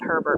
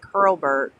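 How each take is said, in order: First: The name is said without an L sound. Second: The name is said with an L sound. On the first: This is the speaker's own casual way of saying it. "I call it Herbert" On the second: This is how the name really goes. "but it's like Hurlburt"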